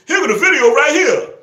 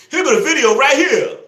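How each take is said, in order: Both takes have the same delivery.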